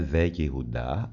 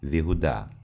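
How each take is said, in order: First: It is said as four syllables, ve-ye-hu-da. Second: It is said as three syllables, vi-hu-da. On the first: The speaker calls it wrong. "Ne ve Jehuda" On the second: The speaker calls it right. "ale David vyhuda"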